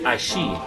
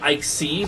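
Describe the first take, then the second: First: The middle consonant is an 'sh' sound. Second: The middle consonant is not an 'sh' sound. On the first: The speaker calls it right. "it takes a sh sound, so it's Aishi" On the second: The speaker calls it wrong. "He said Ixi"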